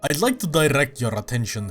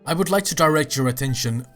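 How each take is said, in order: First: It is said in a put-on character accent. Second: It is said in the speaker's normal accent. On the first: The speaker calls it right. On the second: The speaker calls it wrong.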